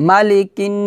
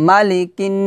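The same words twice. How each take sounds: The two takes are said the same way.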